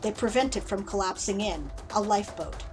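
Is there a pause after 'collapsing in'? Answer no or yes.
yes. There is a pause after "collapsing in." The world itself is a lifeboat. "I'm reading it as you intend it to be paused there"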